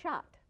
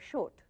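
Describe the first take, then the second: First: Said in a Sindhi accent. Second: Said in a Gujarati accent, sounding like short. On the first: "And the Sindhi will say shot" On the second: "The the Gujarati will say short"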